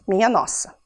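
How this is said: It is said flatly, like a statement.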